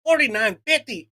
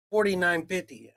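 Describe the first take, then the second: First: Disbelieving echo of the price, a bit louder; incredulous repeat. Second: Flat, matter-of-fact cashier quoting the total; just read off the total like a bored cashier; cashier's flat price. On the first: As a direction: throw the number back in disbelief. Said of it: "I said, "What?". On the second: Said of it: "and the girl goes". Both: Retold or imitated.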